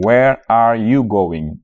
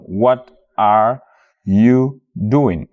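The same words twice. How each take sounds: First: "Where are you going?" slow, stress on "you", level; correct question. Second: "what are you doing?" slow, falling on "doing"; offered as the wrong form; not this question. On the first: Teacher showing learners the right question, slow. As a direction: model it slowly as the right form. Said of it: "question bi noonu lay doon". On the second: Teacher showing learners the question not to use, slow. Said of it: "Du doon". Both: Shown as a demonstration.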